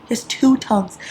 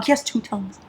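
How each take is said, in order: First: "two" leaned on in the repeat; He has TWO tongues, with the weight on "two"; stress on two. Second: Said in the usual way. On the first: Shown as a demonstration. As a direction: punch the word "two". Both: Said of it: "repeats the line to stress it".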